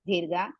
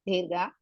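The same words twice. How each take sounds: No difference in how they are said.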